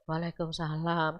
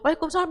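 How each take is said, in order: First: It is said tiredly, out of breath. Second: It is said eagerly, full of energy.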